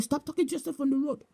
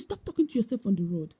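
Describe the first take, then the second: First: Imitated scolding. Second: Said in the usual way. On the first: Bishop appearing to woman on the road, imitated scolding. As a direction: rattle off a mock telling-off.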